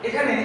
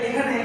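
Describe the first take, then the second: The two takes are said the same way.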